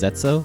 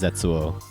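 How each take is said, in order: First: The name ends without an extra 'o' sound. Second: The name ends with an extra 'o' sound. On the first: "Mine is just Zetsu" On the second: "it's so much fun to pronounce it as Zetsuo"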